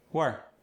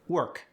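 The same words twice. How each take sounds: First: "Work" with final K dropped, wuh; Cajun soft K. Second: Said in the usual way. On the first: Shown as a demonstration. Coach showing Cajun softened final K. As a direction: let "Work" end without the K. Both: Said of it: "softened at the end of words".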